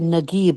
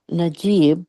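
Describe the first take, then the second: First: The middle consonant is a hard g sound. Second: The middle consonant is a j sound. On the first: This is the Egyptian way of saying it. "When you Egyptians say Nagib" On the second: This is the standard Arabic way of saying it. "instead of uh"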